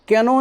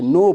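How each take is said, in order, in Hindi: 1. यह शब्द k की ध्वनि से शुरू होता है। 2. यह शब्द n की ध्वनि से शुरू होता है। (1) "कैनो नहीं पढ़ते" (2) "नो पढ़ते हैं"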